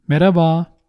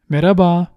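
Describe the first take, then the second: First: The h sound is left out. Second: The same.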